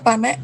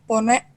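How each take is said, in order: First: The first vowel is an open 'a' sound. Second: The first vowel is a rounded 'o' sound. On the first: This is the form used in the A dialect of Minangkabau. "dialek A-nya panek" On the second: This is the form used in the O dialect of Minangkabau. "dan dialek O"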